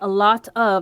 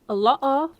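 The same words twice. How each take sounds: First: The t sounds are pronounced clearly. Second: The t sounds are dropped or glottalized. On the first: "instead of saying a lot of" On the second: "they say a lot of a lot of"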